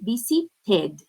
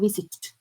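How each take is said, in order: First: The ending is an extra syllable, sounding 'id'. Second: The ending is a bare consonant, no extra syllable. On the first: The speaker calls it right. "we say visited" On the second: The speaker calls it wrong. "instead of visited"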